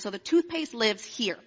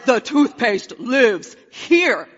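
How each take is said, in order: First: It is said in a calm, plain tone. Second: It is said in an angry tone.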